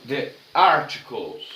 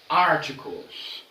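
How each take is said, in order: First: Slow model English. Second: Articles drawn out slowly, stress on AR; slow model pronunciation. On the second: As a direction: spell out each syllable of Articles for students. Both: Shown as a demonstration. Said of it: "O segundo tópico da aula de hoje são os artigos".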